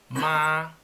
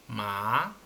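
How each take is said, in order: First: It is said with the first tone. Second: It is said with the second tone. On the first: It means mother. "con tono uno" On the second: It means sesame. "con tono dos"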